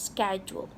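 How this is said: It is said with an American pronunciation. "the U S or the American way of saying it"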